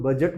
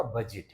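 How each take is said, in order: First: बजट as "buh-jut", weak second vowel; common mispronunciation. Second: बजट as "buh-jit", short i; correct pronunciation. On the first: Retold or imitated. Teacher quoting what people say, mispronounced. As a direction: say बजट with schwa before the t. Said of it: "इसको लोग बजट बोलते हैं". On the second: Shown as a demonstration. Teacher correcting what people say, correct pronunciation. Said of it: "सही pronunciation इसका".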